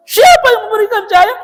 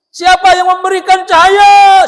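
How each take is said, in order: First: High, loud question with a crying edge; emotional loud question. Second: High, loud challenging question to the crowd; trainer's loud question. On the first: Trainer pressing the crowd, loud and tearful. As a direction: push the question, voice near tears. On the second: Seminar trainer quizzing the audience, loud and high. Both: Retold or imitated.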